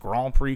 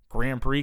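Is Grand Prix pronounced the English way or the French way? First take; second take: French; English. First: It is said with a French pronunciation. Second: It is said with an English pronunciation.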